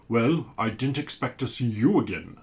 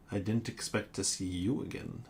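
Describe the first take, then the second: First: Louder, booming sea monster; a big booming monster greeting; booming creature voice. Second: Said in the usual way. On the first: Acted. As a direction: boom it out like a giant creature. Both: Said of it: "says the creature in a booming voice".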